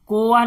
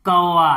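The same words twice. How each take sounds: First: कोवा with a short plain o vowel; wrong reading, कोवा with plain o. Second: कौवा with the broad au sound; right way, with au. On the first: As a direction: say कोवा the way you shouldn't, o not au. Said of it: "कोवा नहीं पढ़ते उसको". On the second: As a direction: say कौवा properly, au at the start. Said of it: "इसको बड़े ओ की मात्रा लगाते". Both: Shown as a demonstration.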